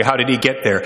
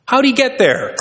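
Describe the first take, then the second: First: Said in the usual way. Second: Did pushed up high and hard, then falling; How did he get there, did raised well above the rest; stress on did. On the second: Shown as a demonstration. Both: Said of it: "rhetorical question repeated".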